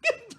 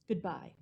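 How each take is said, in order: First: It is said in a silly tone. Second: It is said in a serious tone.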